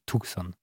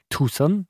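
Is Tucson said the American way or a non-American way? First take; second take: non-American; American. First: It is pronounced unlike the American town's name. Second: It is pronounced like the American town's name.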